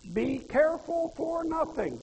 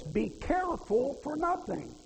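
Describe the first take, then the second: First: "Be careful for nothing" higher and slow, stress on careful; slow, higher repeat hitting "careful"; emphatic repeat. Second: "Be careful for nothing" read slowly, weight on nothing; slow, solemn scripture quote; scripture quoted slowly. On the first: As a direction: lift "careful" and let the line fall slowly. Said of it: "That's what that means". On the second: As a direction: lean on "nothing" and let it fall. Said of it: "You know what he's saying". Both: Shown as a demonstration.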